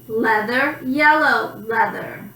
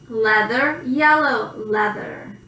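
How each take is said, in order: The two takes are said the same way.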